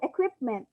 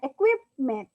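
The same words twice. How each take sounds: First: The stressed syllable is said at normal strength. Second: The stressed syllable is said with exaggerated force. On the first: The speaker calls it right. "simply reading it normally" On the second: The speaker calls it wrong. "Hindi ako nag-exaggerate na equipment"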